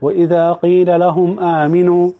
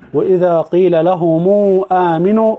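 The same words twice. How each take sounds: First: The m of lahum is silent, without vowel. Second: The m of lahum links with a long u. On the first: "الوجه الأول اللي هو بتاع السكون" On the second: "في وجه الصلاة"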